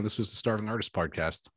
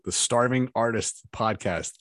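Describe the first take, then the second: First: Said in the usual way. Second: "Starving Artist" said slowly, R's careful; slow careful "Starving Artist Podcast"; careful retake. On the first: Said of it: "I sound like a drunk fool". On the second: Shown as a demonstration. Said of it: "The R's, they fuck with me every time".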